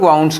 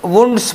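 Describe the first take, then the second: First: The vowel sounds like 'ow' in 'cow'. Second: The vowel sounds like 'oo' in 'moon'. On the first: "वाउंड्स कुछ लोग पढ़ते हैं" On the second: "वुंड्स पढ़ते हैं कुछ लोग"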